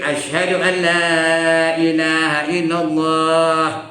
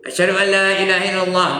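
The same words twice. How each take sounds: First: The long vowel is held for two counts. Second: The long vowel is not held for two counts. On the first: The speaker calls it right. "Dua harakat dan komanya" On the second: The speaker calls it wrong. "Tak betul tu"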